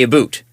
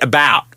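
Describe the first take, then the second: First: "boot" with a long oo vowel; mocked Canadian pronunciation. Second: "about" with a wide open ow; imitated American pronunciation. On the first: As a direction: imitate the caricatured Canadian "a boot". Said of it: "he says I say a boot". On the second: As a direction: imitate a West Coast "about". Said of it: "he says it about".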